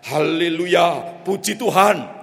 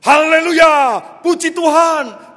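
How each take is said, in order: First: Slow, somewhat louder haleluya; a bit louder. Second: High, loud shouted haleluya. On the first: Pastor trying again after the handler's nudge, somewhat louder. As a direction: say it a touch louder. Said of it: "Lebih keras". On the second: Pastor spurring the horse to gallop, full shout. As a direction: yell it to spur the horse on. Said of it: "ia berteriak". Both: Acted.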